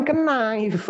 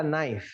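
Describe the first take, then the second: First: "knife" as "kuh-naif", K sounded; drawn-out, high "kuh-naif" for knife; wrong knife. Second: "knife" as "naif", silent K; correct knife. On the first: Teacher warning against the mistake, knife said "kuh-naif". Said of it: "Jangan knife". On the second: Teacher giving the right reading, knife as "naif". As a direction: start "knife" straight on the N. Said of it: "Bahasanya adalah knife". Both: Shown as a demonstration.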